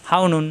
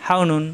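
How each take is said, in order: Both takes have the same delivery.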